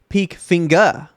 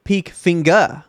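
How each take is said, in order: First: The surname is given a German pronunciation. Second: The surname is given a German pronunciation.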